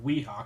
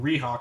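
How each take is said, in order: First: The word begins with a W sound. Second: The word begins with an R sound. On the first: The speaker calls it right. "instead of Weehawk" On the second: The speaker calls it wrong. "he couldn't pronounce the W, and he kept saying R"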